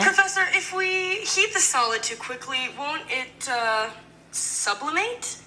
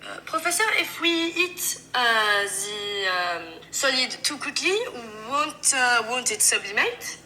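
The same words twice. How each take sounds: First: High voice, slowing into a rising question; higher voice, hesitant before the last word; high-pitched student question. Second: French-accented English with hesitant pauses; French student groping for the English words. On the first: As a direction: ask the professor in a raised pitch. Sample line, plain English before French version. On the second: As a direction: put on a French accent, dragging out the filler sounds. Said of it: "French have a sound for their pauses". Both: Shown as a demonstration.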